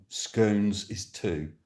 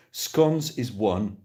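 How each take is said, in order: First: "scones" slow with long o, "skohnz". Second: "Scones" slow with short o, "skons". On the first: Polling the chat, slow "skohnz" for option two. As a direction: stretch "scones" out slowly as "skohnz". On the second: Polling the chat, slow "skons" for option one. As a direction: drawl "Scones" out slowly as "skons". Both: Shown as a demonstration.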